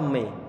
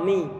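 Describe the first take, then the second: First: The vowel sounds like 'e'. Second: The vowel sounds like 'i'. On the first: The speaker calls it wrong. "bukan mim kasroh me" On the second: The speaker calls it right. "tapi adalah mim kasroh mi"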